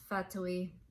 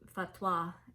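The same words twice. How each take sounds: First: The name is pronounced the Italian way. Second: The name is pronounced the French way. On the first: The speaker calls it right. "it is Fatoi in Italian. That's how you pronounce it" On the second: The speaker calls it wrong. "it looks French. Fatoi is what it looks like to me"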